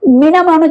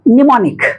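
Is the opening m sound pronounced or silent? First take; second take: pronounced; silent. First: The word begins with a pronounced m sound. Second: The word begins directly with an n sound. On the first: The speaker calls it wrong. "इसको मिनामोनिक नहीं बोलते हैं" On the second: The speaker calls it right. "निमोनिक में एम silent है"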